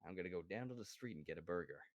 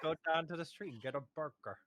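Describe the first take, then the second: First: Low, quick, softer American accent attempt. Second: Hammed-up American accent, slightly raised; mock American accent. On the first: Friend repeating the host's line, unconvincing American accent. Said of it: "See, it doesn't work". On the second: Host demonstrating for a friend, playful American accent. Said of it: "hit your American accent". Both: Shown as a demonstration.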